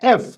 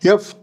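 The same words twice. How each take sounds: First: It begins directly with a plain vowel sound. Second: It begins with a y-like glide before the vowel. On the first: The speaker calls it right. "The first sound is ఏ, not యా" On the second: The speaker calls it wrong. "Wrong pronunciation"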